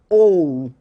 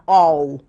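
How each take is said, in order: First: The O vowel is said closed. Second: The O vowel is said open. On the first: The speaker calls it right. "ele vai fechar um pouco" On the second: The speaker calls it wrong. "Não vai ficar all"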